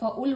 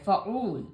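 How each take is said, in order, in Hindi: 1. दूसरा स्वर छोटा है, खींचा हुआ नहीं। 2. दूसरा स्वर लंबा है और खींचा हुआ है। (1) "एन के ऊपर सिर्फ पेश होता फ़ाउल होता" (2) "इसके साथ वाव लग गया है तो लफ्ज़ खिंच रहा है"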